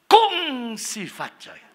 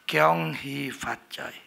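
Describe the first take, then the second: First: Kung Si Fat Choi said high and slow, drawn out; high Hakka greeting. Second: Kyong Hee Fat Choi said low and slow, drawn out; low Hokkien greeting. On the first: Preacher demonstrating the Hakka New Year greeting, high and slow. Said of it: "Tinggi, sudah". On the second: Preacher demonstrating the Hokkien New Year greeting, low and slow. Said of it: "Ya, rendah". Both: Shown as a demonstration.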